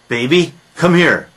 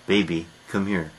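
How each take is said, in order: First: It is said in a louder voice. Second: It is said in a softer voice.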